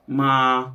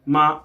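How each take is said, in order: First: MA held level near speaking pitch; man's first tone. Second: MA pitched up and louder; higher first tone. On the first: Showing a man's first tone, level unforced MA. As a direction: sustain "ma" evenly in a man's comfortable range. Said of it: "if you have a deeper pitch voice as a man". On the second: Missing the intended man's pitch, higher louder MA. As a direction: push "ma" higher and firmer. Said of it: "That actually sounds higher than the first one". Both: Shown as a demonstration.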